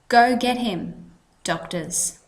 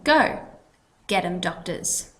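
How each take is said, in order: First: There is a pause right after "him". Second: There is a pause right after "go". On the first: The doctors are told to go and catch him. "if we take out the comma and we put it somewhere else" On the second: Someone is told to go and fetch doctors for him. "our comma implies we have a pause"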